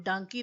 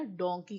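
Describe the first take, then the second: First: डंकी said with a short 'uh' vowel; wrong 'dunkey' pronunciation. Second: डोंकी said with a clear 'o' vowel; proper 'donkey' with an o sound; correct vowel. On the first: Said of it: "डंकी तो नहीं कहते ना". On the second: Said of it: "डोंकी कहते हैं". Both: Shown as a demonstration.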